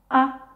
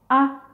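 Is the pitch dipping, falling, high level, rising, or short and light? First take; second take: short light; short light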